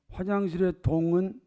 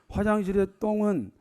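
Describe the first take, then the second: First: The word is pronounced softly and not clearly. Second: The word is pronounced crisply with a tense consonant. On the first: The speaker calls it wrong. "발음이 좀 안 좋으면 이해하세요" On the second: The speaker calls it right. "바람을 제대로 해봐요"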